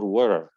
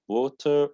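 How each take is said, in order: First: It is said with an American accent. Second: It is said with a British accent. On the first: "water in American" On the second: "water in British"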